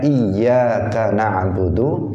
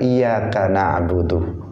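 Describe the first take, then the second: First: The y sound in the first word is doubled. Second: The y sound in the first word is single. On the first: The intended meaning of the phrase is kept. The speaker calls it right. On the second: The meaning of the phrase is changed. The speaker calls it wrong. "dia membacanya tanpa tasydid"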